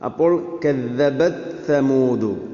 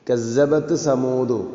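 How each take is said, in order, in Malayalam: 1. ഇരട്ടിച്ച വ്യഞ്ജനം ശബ്ദമുള്ള th ശബ്ദമാണ്. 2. ഇരട്ടിച്ച വ്യഞ്ജനം ചീറുന്ന z പോലെയാണ് കേൾക്കുന്നത്. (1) "ശ്രദ്ധിച്ച് പറഞ്ഞാൽ മാത്രമേ ഇത് ശരിയാവുകയുള്ളൂ" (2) "ഇത്തരം ഓത്തുകളൊക്കെ നമ്മൾക്ക് ഒരു പക്ഷേ കേൾക്കാൻ പറ്റും"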